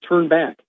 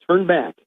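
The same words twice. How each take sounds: No difference in how they are said.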